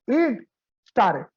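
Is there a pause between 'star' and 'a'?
no. It runs together with no pause before 'a'. The speaker calls it wrong. "don't read it int star a. Don't read it like this"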